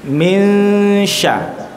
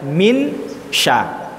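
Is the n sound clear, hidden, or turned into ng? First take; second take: hidden; clear. First: The n fades into the following sh sound. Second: The n is pronounced fully and clearly. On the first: "ujung n-nya itu dihilangkan, dimasukkan ke huruf shin" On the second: "itu namanya izhar"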